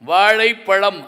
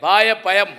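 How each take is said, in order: First: The word uses a retroflex zh sound. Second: The zh sound is replaced by a y. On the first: The speaker calls it right. "அப்படிதான் சொல்லணும்" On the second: The speaker calls it wrong. "அவன் வாயப்பயம் அப்படின்னு இருக்கான்"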